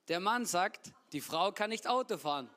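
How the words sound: It pauses only after sagt.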